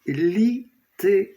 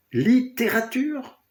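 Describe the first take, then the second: First: Littérature broken into lit-té-rature with clear pauses; high, deliberate littérature, a gap after li and after té; split into three words. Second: Littérature asked as one word, pitched high; high, questioning Littérature, no breaks between syllables. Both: Shown as a demonstration. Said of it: "En trois mots".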